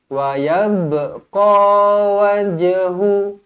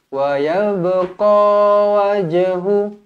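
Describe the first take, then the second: Both takes have the same delivery.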